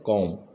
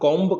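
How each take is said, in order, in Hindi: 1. शब्द का अंत m से होता है, कोई b ध्वनि नहीं है। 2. शब्द का अंत एक स्पष्ट b ध्वनि से होता है। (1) "इसका उच्चारण हमेशा होता है कॉम" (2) "जनरली इसका उच्चारण हम कॉम्ब कर देते हैं ... लेकिन वो गलत हो जाता है"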